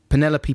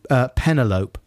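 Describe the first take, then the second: First: The name is said the usual way. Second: The name is said to rhyme with envelope.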